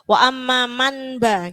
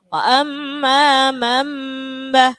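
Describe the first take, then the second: First: An n sound is heard before the b. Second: An m sound is heard before the b. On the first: The speaker calls it wrong. "Kalau jenengan tidak tahu" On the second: The speaker calls it right. "nunnya itu tidak dibaca, diganti dengan apa? Him"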